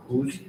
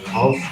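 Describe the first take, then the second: First: "whose" for house, with a long oo; Newcastle-style "whose", oo instead of ow; Newcastle dialect pronunciation. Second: Said in the usual way. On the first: Shown as a demonstration. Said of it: "Newcastle dialect". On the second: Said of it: "the word house may sound like".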